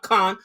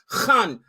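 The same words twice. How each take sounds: First: The first sound is a plain k. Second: The first sound is rasped deep in the throat. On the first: The speaker calls it wrong. "not Khan" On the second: The speaker calls it right. "You got to say it from esophagus"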